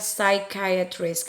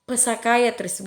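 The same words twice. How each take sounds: First: The initial P is silent. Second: The initial P is pronounced. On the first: The speaker calls it right. "Jadi ini dibaca psychiatrist" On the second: The speaker calls it wrong. "Jadi P-nya bukan psychiatrist, bukan ya"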